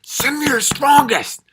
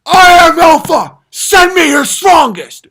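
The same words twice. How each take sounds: First: High, slow bellowed boast; mock alpha boast. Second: Very loud, high, slow bellowed boast; mock alpha boast. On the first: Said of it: "It's like". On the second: Comic mocking a self-proclaimed alpha's challenge. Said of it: "Is that when it's like". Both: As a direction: bellow it like a cartoon tough guy.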